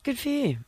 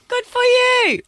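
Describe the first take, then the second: First: It sounds flat and condescending. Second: It sounds overly enthusiastic and bright.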